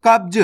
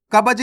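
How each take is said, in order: First: कब्ज as one syllable, "kabj"; correct half-letter reading. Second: कब्ज opened up as "ka-baj"; wrong full-letter reading. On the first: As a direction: run b straight into j in कब्ज. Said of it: "कब्ज नहीं पढ़ना". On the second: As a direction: put a vowel between b and j in कब्ज. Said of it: "नहीं पढ़ना". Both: Shown as a demonstration.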